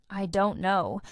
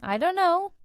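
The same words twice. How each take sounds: First: "I don't know" with "don't" as one word; plain contraction. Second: "I don't know" run together like "I dunno", pitched high; casual reduced form. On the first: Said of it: "you can say". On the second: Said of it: "or even". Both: Shown as a demonstration.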